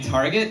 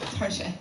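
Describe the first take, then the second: First: Target is said with a plain English pronunciation. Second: Target is said with a French-style pronunciation. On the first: The store is named in the ordinary way. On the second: The store is named to sound posh and sophisticated.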